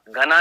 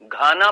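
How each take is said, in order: First: The first vowel is short. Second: The first vowel is long. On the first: The speaker calls it wrong. "घना नहीं" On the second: The speaker calls it right. "घाना पक्षी विहार"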